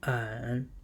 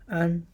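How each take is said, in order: First: The pitch dips low and comes back up. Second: The pitch stays high and level.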